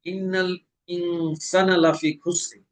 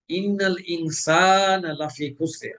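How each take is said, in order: First: ইনসানা with the alif cut short; wrong short alif. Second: Slow ইনসানা with the alif held long; correct long alif. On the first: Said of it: "হরকতের মতো". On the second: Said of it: "সিনে আছে আলিফ মাদ". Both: Shown as a demonstration.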